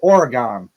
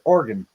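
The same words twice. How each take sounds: First: It is pronounced the way non-residents usually say it. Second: It is pronounced the way local residents say it. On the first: This is how people from elsewhere say it. "people that are not from there always tend to go Oregon" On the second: This is how people who live there say it. "they pronounce it Oregon"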